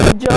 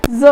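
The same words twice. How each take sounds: First: ਜ as a hard j; wrong sound. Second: ਜ਼ as a buzzing z; correct sound. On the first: Teacher recapping the mistake for students, wrong sound. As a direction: give ਜ a stopped j sound. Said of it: "It's not ਜ". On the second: Teacher recapping the sound for students, correct sound. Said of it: "it's ਜ਼". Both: Shown as a demonstration.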